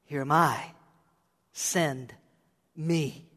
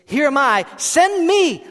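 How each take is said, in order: First: Low, soft, halting surrender; hushed, solemn offering of oneself; understated reply. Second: Loud, high, urgent exclamation; forceful cry of an eager volunteer; emphatic. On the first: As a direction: say it quietly, with a pause before each word. First, understated reading of Isaiah's reply. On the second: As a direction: shout it with an exclamation point. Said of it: "Isaiah's response is emphatic". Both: Acted.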